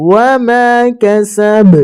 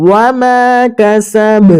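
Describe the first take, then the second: Both takes have the same delivery.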